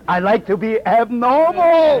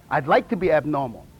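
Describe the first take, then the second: First: Louder, slow, drawn-out ABNORMAL; emphatic declaration. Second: Said in the usual way. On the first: Shown as a demonstration. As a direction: proclaim "abnormal" proudly, stretching it out loud.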